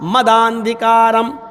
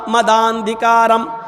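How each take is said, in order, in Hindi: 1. शब्द मिल जाते हैं और 'a' 'd' से जुड़ जाता है। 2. शब्द मिल जाते हैं और 'a' 'd' से जुड़ जाता है।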